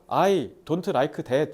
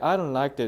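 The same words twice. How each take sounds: First: It is said with a heavy Korean accent. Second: It is said with smooth, native-like pronunciation. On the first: Listeners adjust and make allowances for the speaker. "발음이 못, 안 좋잖아?" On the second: Listeners assume the speaker is fluent in English. "얘 좀 영어 좀 치는데?"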